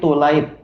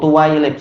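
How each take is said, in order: First: The word has no 'wai' syllable in it. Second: The word has an added 'wai' syllable in it. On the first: The speaker calls it right. "tapi tulaib" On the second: The speaker calls it wrong. "tahu-tahu ada wawu di situ, tuwailib, salah"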